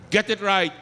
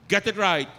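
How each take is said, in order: Both takes have the same delivery.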